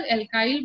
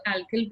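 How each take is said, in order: First: Alkyl said "el-KAIL", long i; alkyl as EL-kile. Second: Alkyl said "AL-kil", short i; alkyl as AL-kill. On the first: Teacher shows students one accepted pronunciation, alkyl as "el-kile". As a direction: end alkyl to rhyme with "mile". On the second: Teacher shows students the other pronunciation, alkyl as "al-kill". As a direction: end alkyl to rhyme with "hill". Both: Shown as a demonstration. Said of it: "कुछ लोग alkyl बोलते हैं".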